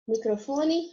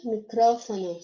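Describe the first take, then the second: First: Microfone with the stress on FO. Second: Micrófono with the stress on CRÓ. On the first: Teacher gives the Portuguese take, stress on FO in Microfone. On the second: Teacher gives the Spanish take, stress on CRÓ in micrófono. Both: Shown as a demonstration. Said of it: "só muda a sílaba tônica".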